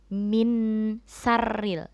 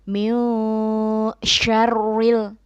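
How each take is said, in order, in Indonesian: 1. Kata kedua diawali dengan bunyi s. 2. Kata kedua diawali dengan bunyi sh. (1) "bukan min sarril" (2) "Jadi bacanya min syarril"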